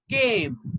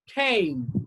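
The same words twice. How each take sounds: First: It is said in an Indian English accent. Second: It is said in a British English accent. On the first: "Indian English" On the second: "I will first pronounce in the British way"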